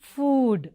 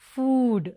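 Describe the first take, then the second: First: The vowel is a long oo sound. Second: The vowel is a long oo sound.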